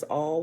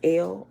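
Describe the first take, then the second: First: The word is said with an 'aw' vowel. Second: The word is said with an 'eh' vowel. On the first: The speaker calls it right. "they pronounce it as all, which is actually the right pronunciation" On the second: The speaker calls it wrong. "it's pronounced as L"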